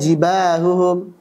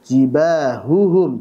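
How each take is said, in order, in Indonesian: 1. Bunyi h-nya kabur, tidak jelas. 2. Bunyi h-nya jelas dan tegas. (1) "nggak jelas itu"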